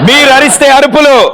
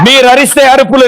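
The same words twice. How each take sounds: First: The phrase is said slowly and carefully. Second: The phrase is said at a normal pace.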